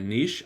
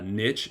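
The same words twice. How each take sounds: First: It is said with a French-style pronunciation. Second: It is said with an English-style pronunciation. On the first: "I'll try to say niche more because it's French" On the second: "I got ripped for saying uh, niche"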